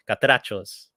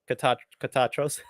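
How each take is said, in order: First: "Catrachos" with a Spanish accent, R put in; corrected Spanish pronunciation of "Catrachos". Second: Stumbling "Catach-, Catachos" without the R; false start, then "Catachos" with the R missing; mispronounced. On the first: Shown as a demonstration. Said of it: "say it with my Spanish voice". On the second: Real, not acted. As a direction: trip over it, saying "Catachos". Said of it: "I'm saying it wrong".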